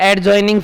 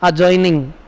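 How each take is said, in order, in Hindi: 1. d ध्वनि स्पष्ट रूप से बोली जाती है। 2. d ध्वनि मौन रखी जाती है। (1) "एड ज्वाइनिंग नहीं बोलते" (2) "उनको क्या बोलते हैं?"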